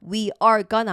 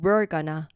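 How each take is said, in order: First: We and are are said as two full words. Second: We and are are linked into one syllable. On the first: The speaker calls it wrong. "we are gonna 아니고" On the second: The speaker calls it right. "요것도 굉장히 같이 연결해서 소리 많이 내거든요"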